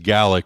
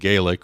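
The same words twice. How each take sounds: First: It is pronounced the way Scots say it. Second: It is pronounced the way the Irish say it. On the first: It names the language spoken in Scotland. "in Scotland, it's referred to as Gaelic" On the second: It names the language spoken in Ireland. "rather than Gaelic, which is in Ireland"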